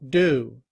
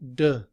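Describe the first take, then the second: First: The vowel is a full, long oo. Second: The vowel is reduced to a weak uh. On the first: "the letter U, which in I P A is pronounced U" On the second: "in reduced form, do becomes D, written with the schwa"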